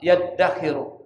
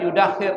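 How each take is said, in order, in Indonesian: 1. Dimulai dengan 'ya' dan 'd' ganda. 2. Dimulai dengan 'yu' dan satu 'd'. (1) "Yang pas itu adalah yaddakhiru" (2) "Ada juga yang baca yudakhir, tapi enggak pas"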